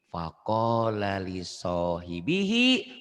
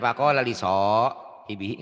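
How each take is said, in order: First: The phrase flows through without any break. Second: There is a break in the middle of the phrase. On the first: The speaker calls it right. "nyambung nih" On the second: The speaker calls it wrong. "Jangan faqala liso. Hibihi. Nggak boleh"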